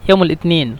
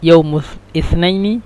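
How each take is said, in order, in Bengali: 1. এটি মিশরীয় আঞ্চলিক আরবি ভাষায় বলা হয়। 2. এটি শুদ্ধ আরবি ভাষায় বলা হয়। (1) "এটা হলো মিশরের আঞ্চলিক ভাষায় বলে।" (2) "আর শুদ্ধ ভাষা"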